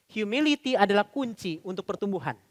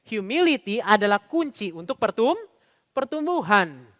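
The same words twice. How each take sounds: First: Said in the usual way. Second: Slow "humility adalah kunci", held up at "pertum-", then "pertumbuhan"; emphatic repeat. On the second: Shown as a demonstration. Preacher repeats the key point for the congregation, slow emphasis on "pertumbuhan". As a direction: break "pertum-" with a rising pause, finish on "pertumbuhan". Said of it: "Sekali lagi Bapak sekalian ya".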